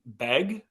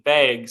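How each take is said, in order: First: "beg" as friends mishear it, short open e; misheard "beg". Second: Drawn-out Midwestern "bag", nearly rhyming with "vague"; North Dakota "bag". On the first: Guest shows host what friends think they hear, "beg" with short e. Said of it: "make fun of me when I say the word bag". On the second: Guest defends her hometown word, "bag" in North Dakota vowel. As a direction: say "bag" with its vowel raised toward "beg". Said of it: "but I'm saying bag". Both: Shown as a demonstration.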